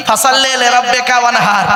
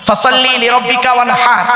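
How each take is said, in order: First: "ওয়ানহার" ending flat as wanha, without the throat h; common wrong recitation. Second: "ওয়ানহার" ending with a full throaty har; correct recitation. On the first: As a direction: mimic the careless "ওয়ানহার". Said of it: "আর আমরা উচ্চারণ করি কি?". (লোকের ভুল উচ্চারণের নকল) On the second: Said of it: "এই গলার ভেতর থেকে এটা উচ্চারণ করবে". (শুদ্ধ উচ্চারণে তেলাওয়াত) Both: Shown as a demonstration.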